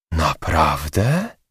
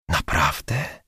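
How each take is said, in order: First: Slow, drawn-out astonished question; gasped drawn-out question; surprised exclaim. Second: Much softer, hushed disbelieving question; hushed, close-up asking; quieter question. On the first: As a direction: stretch it out in disbelief. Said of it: "zawołała recepcjonistka". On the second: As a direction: drop the voice and ask again. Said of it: "ciszej zapytała Żaneta". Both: Acted.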